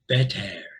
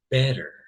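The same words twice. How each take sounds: First: The second syllable has a full 'e' vowel. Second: The second syllable has a weak schwa vowel. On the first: The speaker calls it wrong. "I did not say better, better. We don't talk that way" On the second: The speaker calls it right. "we've got here the schwa sound"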